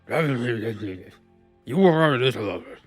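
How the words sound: It is said in a jowly British aristocrat voice.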